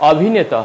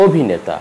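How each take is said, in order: First: অভিনেতা said the mistaken way with a rise; অভিনেতা as learners often mispronounce it; wrong pronunciation. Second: অভিনেতা said the right way, falling; অভিনেতা clearly and correctly pronounced; correct pronunciation. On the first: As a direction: read অভিনেতা the naive way. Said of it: "হবে না". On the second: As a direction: model অভিনেতা for students. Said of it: "উচ্চারণ হবে". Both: Shown as a demonstration.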